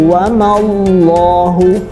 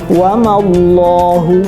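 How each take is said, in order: Both takes have the same delivery.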